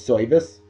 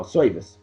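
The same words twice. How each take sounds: First: Said in the usual way. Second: Put-on "service" as "soyvice" in New Jersey accent; New Jersey accent, "service" with an oy vowel. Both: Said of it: "That's how they say it in Jersey".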